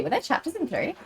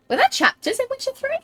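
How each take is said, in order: First: Said in the usual way. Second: Surprised question. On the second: Real, not acted. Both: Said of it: "I know there were chapters".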